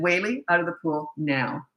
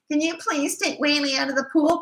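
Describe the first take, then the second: First: Level, matter-of-fact command, falling at the end; firm order. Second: High, mock pleading request with a rise; wheedling plea. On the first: Retold or imitated. Coach ordering the boy over a safety rule, firm. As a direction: give the order evenly, no question in it. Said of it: "'cause that's a safety issue". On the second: Coach mocking how she'd sound asking the boy, pleading. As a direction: beg sweetly and weakly, pitched way up. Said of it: "Because I'd sound like me".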